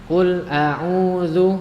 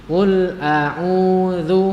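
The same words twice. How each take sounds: Both takes have the same delivery.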